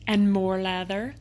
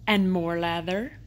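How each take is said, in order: Both takes have the same delivery.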